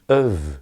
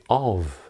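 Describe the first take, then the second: First: The word is said with a weak vowel. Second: The word is said in full with a clear vowel. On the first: "It's normally of" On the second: "is rarely uh, spoken in this way"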